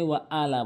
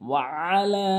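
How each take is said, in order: First: The vowel after l is short. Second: The vowel after l is held long. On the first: The speaker calls it wrong. "অনেকে ওয়া আলা বলে" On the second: The speaker calls it right. "লাম অবশ্যই তিন আলিফ"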